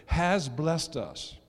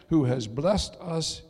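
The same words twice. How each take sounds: First: "has" drawn out and weighted, very slow phrase; stress on HAS. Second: Said in the usual way. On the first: Shown as a demonstration. Preacher wants the church to note it, "has" emphasized. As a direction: lean hard and long on the word "has". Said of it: "emphasize the word there".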